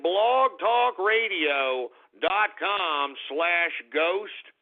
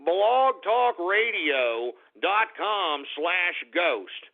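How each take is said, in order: First: Drawn out, every syllable clear; slow repeated address. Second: Slow, spelled-out address. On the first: Host repeating his website, slow and deliberate. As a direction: spell it out slowly for listeners. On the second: Spelling out the website. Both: Real, not acted.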